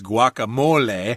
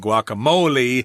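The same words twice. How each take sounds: First: The word is said with a Spanish pronunciation. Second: The word is said with an American pronunciation. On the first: "that's the pronunciation for Spanish speakers" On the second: "Americans would probably say guacamole"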